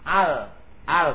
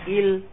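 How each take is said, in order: First: The article is said with an a vowel. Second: The article is said with an i vowel. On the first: The speaker calls it right. "Hamzanya dibaca fathah" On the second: The speaker calls it wrong. "gak boleh il"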